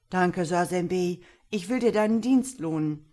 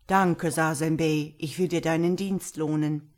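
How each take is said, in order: First: Put-on old ibex. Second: Put-on old eagle. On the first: Old ibex thanking the boy who helped him, projected creature voice. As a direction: voice a grateful old animal, projected. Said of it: "Der alte Archabok lief herbei und sprach". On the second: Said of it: "Da kam der alte Adler geflogen". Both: A narrator's reading.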